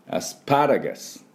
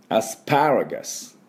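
No difference in how they are said.

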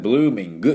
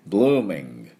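First: The word ends with an added u vowel. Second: The word ends on a throat g sound. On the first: The speaker calls it wrong. "ブルーミングっていうU をつけないね" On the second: The speaker calls it right. "喉でグッて鳴らして終わりです"

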